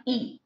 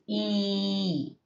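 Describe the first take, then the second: First: "E" cut short, not held. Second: "E" held long and steady; prolonged E. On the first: Teacher showing students what not to do, short E. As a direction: say "E" briefly, without prolonging it. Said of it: "Okay, not E". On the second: Teacher correcting the short sound, prolonged E. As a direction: stretch "E" out slowly. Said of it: "you have to prolong the sound". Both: Shown as a demonstration.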